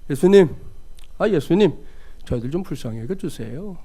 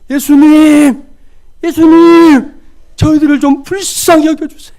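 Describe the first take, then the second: First: It sounds indifferent and lukewarm. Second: It sounds earnest and desperate.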